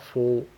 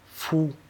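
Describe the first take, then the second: First: The vowel is a rounded 'oh' sound. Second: The vowel is a thin 'oo' sound. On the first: The speaker calls it wrong. "On ne dit pas faux" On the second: The speaker calls it right. "vers le OU"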